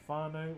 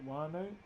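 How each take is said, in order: First: The start has a breathy h-like sound. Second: The start is a plain w sound. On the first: "some might say whānau for family" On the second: "some might say wānau instead"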